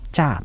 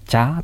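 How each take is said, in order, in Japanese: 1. 単語の語尾で、ピッチは下がります。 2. 単語の語尾で、ピッチは上がります。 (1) "肯定文の場合はチャと語尾を下げる" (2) "疑問文の場合はチャと語尾を上げ"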